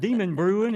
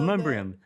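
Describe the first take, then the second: First: The name is said as 'Demon Brewing'. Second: The name is said as 'Demumbrium'. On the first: The speaker is visiting from out of town. The speaker calls it wrong. "you can tell when people are visiting" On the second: The speaker is a local. The speaker calls it right. "That's how I've always said it"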